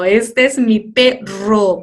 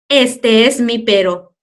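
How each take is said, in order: First: "perro" with a strong trilled rr; teacher demoing the right sound; rolled rr. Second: "perro" with a single tapped r; teacher demoing the wrong sound; wrong soft r. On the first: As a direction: roll the r hard in "perro". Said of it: "porque tiene dos y va a sonar fuerte". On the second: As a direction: say "perro" softly as if it were "pero". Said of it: "No, demasiado raro". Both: Shown as a demonstration.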